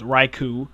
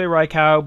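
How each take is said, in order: First: The last syllable ends in an oo sound. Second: The last syllable ends in an ow sound. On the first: The speaker calls it right. "It's oo, so it's Raikou" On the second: The speaker calls it wrong. "People say Raikou, but you don't say Yao"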